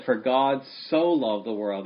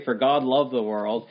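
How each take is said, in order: First: "so" leaned on, held a beat longer; stress on so. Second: Said in the usual way. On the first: Shown as a demonstration. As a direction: put the weight on "so" in "For God so loved the world". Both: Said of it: "God emphasized it".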